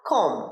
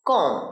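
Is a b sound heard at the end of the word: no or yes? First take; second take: no; no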